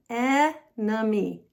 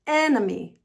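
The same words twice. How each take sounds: First: "enemy" slowly split as e, nuh, mee; slow syllable breakdown. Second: Said in the usual way. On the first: Shown as a demonstration. Teacher demonstrating to learners, "enemy" slowly broken up. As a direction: say "enemy" syllable by syllable, first one held. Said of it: "the words slowly". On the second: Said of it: "practice the word at normal speed".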